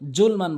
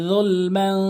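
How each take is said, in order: First: The word begins with a 'j' sound. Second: The word begins with a 'z' sound. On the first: The speaker calls it wrong. "বলা যাবে না" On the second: The speaker calls it right. "জিহ্বার আগা দাঁতের আগা য উচ্চারণ করতে হবে"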